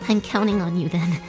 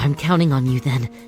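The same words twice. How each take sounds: First: It is said in a cute, high put-on voice. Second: It is said in a normal voice.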